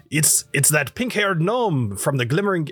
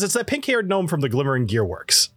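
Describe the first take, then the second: First: Lightly voiced character, slightly raised; a hint of another character's voice, slipping from Dwarven; Alessio. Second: Said in the usual way. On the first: Game master fumbling the dwarf, mistaken character voice. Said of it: "no, that's, uh, Alessio's voice". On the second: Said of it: "I'll get back into the accent".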